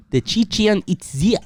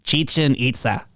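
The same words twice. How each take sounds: First: "Chichen Itza" sounded out slowly as "titchien itzy"; halting pronunciation attempt. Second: "Chichen Itza" said as "cheechen eetsa"; Spanish pronunciation. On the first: Real, not acted. Unsure of the Spanish, sounds out "Chichen Itza" slowly. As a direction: stumble slowly through "Chichen Itza", guessing. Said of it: "I don't know how to pronounce these in Spanish". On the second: Shown as a demonstration. Asked to pronounce it, he says "Chichen Itza" properly. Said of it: "you want me to pronounce".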